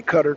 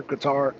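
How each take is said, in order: First: Qatar as CUTTER; Qatar with stress on the first syllable, like "cutter"; other people's pronunciation. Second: Qatar as kuh-TAR; Qatar stressed on the last syllable, "tar"; own pronunciation. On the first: Streamer noting how some say it, Qatar said CUTTER. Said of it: "some people say Qatar". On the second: Streamer returning to their version, Qatar said kuh-TAR. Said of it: "Or some people say Qatar". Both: Shown as a demonstration.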